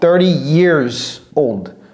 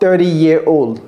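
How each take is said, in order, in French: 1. Le S à la fin de 'years' est prononcé. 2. Le S à la fin de 'years' est muet. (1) "prononcez toujours ce S" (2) "J'entends des fois thirty year old. Non"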